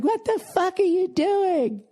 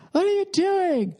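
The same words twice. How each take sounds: First: Much higher, slow, outraged woman's shriek; imitating shrill woman. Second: Much higher outraged woman's shriek; imitating shrill woman. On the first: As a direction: mimic a frantic shopper clinging to her TV. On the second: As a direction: mimic the shopper yelling as the TV is dragged off. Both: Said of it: "She's going like".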